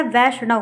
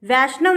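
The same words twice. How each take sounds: First: वैष्णव with retroflex ṇ after sh; correct pronunciation. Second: वैष्णव with dental n after sh; wrong pronunciation. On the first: Teacher gives the right word, with retroflex ṇ. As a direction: curl the tongue back for ṇ in वैष्णव. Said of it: "ना और ड़ा में difference". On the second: Teacher shows the misspelling, with dental n. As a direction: say वैष्णव as "vaishnav" with n on the teeth. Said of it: "वैष्णव नहीं होता है". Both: Shown as a demonstration.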